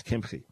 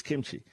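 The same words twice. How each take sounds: First: Throaty Hebrew ch inside Kimchi; Kimchi with guttural ch. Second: Kimchi said like the Korean dish; kimchi with English ch. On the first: Host reassures listeners with correct pronunciation, guttural Kimchi. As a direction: scrape the middle of Kimchi. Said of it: "that's the wrong pronunciation". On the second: Host admits old mistake, kimchi with English ch. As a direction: church ch in kimchi. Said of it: "But I thought it was kimchi". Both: Shown as a demonstration.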